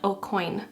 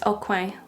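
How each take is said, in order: First: The name ends like the English word coin. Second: The name is said with a French-style ending. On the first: The speaker calls it wrong. "like a silver coin or something" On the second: The speaker calls it right. "like corner in French"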